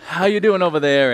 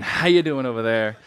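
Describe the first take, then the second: First: Louder, higher call to the side wings; greeting the crowd. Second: Said in the usual way. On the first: Pretend. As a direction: call out to the far seats. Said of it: "I gotta".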